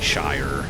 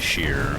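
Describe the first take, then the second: First: The vowel sounds like the word 'eye'. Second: The vowel sounds like the word 'ear'. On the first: It is how the speaker's own community says it. "we would say shire" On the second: It imitates how English people say it. "Most of the time we don't say sheer"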